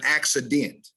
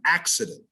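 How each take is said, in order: First: ACCIDENT as AK-si-DENT, full last vowel; overstressed syllables. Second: ACCIDENT as AK-si-dnt, weak ending; first-syllable stress. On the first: Diction teacher showing the error to avoid, overstressed ending. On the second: Diction teacher modelling accident, first syllable stressed. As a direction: let the end of accident go unstressed. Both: Shown as a demonstration. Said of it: "not an accident".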